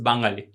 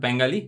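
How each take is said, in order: First: The word is said the native Bengali way. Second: The word is said the anglicized English way. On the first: The speaker calls it right. "proper pronunciation" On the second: The speaker calls it wrong. "it's not Bengali"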